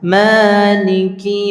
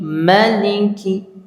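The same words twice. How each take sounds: First: The first vowel is long. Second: The first vowel is short. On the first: "itu surat Al-Fatihah" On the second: "Ma-nya tidak panjang di sini"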